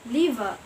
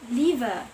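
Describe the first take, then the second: Both takes have the same delivery.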